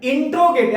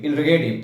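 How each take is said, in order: First: The word begins with an 'intro' sound. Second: The word begins with an 'inner' sound. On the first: The speaker calls it wrong. "क्या बोलते हो भाई" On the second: The speaker calls it right. "वो इंट्रोगेटिव नहीं होता है"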